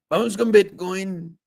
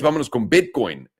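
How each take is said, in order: First: High, slow put-on voice; funny put-on voice. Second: Said in the usual way. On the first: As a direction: stretch it out in a silly high voice. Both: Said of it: "there's something with the voice that you're making".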